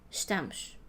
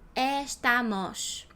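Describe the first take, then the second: First: The unstressed vowels are closed and reduced. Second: Every vowel is pronounced fully open. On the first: The speaker calls it right. "We say estamos" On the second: The speaker calls it wrong. "If I open every single sound, every single letter, it will be estamos"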